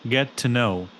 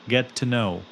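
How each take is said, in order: No difference in how they are said.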